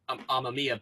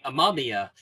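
First: The name is said in a Japanese-style way. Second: The name is said in an English-style way. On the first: This is how the name is meant to sound. The speaker calls it right. "it is supposed to be said Amamiya" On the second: This is how the dub says the name. The speaker calls it wrong. "for the dub, they say Amamiya"

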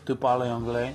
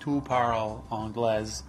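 First: It is said with a fairly native-like French accent. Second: It is said with a heavy foreign accent. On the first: "Although it didn't sound like that" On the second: "with the worst accent ever, ... It was like"

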